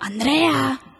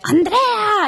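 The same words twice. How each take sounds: First: The name is called louder. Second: The name is yelled very loudly.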